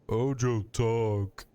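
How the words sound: It is said in a dumb brute voice.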